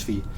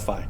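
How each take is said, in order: First: The letter name gets its strict, classical pronunciation. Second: The letter name gets its everyday, common pronunciation. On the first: This is the strict, traditional way to say it. "if you're a stickler for ... proper early Latin enunciation, then it's phi" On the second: This is how most people say it. "Most people call it phi"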